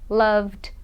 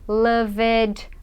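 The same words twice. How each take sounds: First: The ending is said as only a D sound. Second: The ending is said as an extra syllable. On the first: The speaker calls it right. "você fala só o D, tira o E da pronúncia" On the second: The speaker calls it wrong. "Muita gente fala assim, pronunciando o E, E D, mas não"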